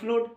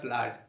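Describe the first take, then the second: First: The vowel is a long rounded 'oh/oo' sound. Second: The vowel is a short open 'uh' sound. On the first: The speaker calls it wrong. "তাহলে ফ্লোট হতে পারে" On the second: The speaker calls it right. "এটা ফ্লোট নয় এটা ফ্লাড"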